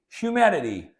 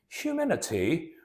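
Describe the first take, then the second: First: It is said in an American accent. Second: It is said in a British accent. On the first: "in the American accent" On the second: "let me read it in British"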